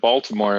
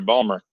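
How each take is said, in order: First: The name is said in full with the T. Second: The name is clipped with no T sound. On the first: The speaker is not from the city. "If you pronounce the T, you're not from there" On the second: The speaker is from the city. "No T whatsoever"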